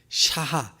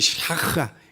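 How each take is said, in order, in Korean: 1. 가운데 h 소리는 평범하고 부드럽습니다. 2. 가운데 소리는 거칠고 목에서 나는 마찰음입니다. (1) "발음은 샤하인데" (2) "원래는 샤하 샤하인가 봐요"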